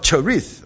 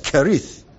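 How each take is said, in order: First: The name begins with a ch sound. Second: The name begins with a k sound. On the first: This is the English pronunciation. The speaker calls it wrong. "there is no ch sound" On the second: This is the Hebrew pronunciation. The speaker calls it right. "Everything is K sound"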